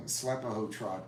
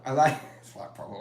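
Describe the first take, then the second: First: Said in the usual way. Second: Repeated through a real laugh. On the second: Real, not acted. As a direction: say it again while laughing at it.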